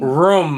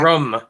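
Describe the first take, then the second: First: It has a long oo vowel, like room. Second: It has a short Massachusetts-style vowel, like rum.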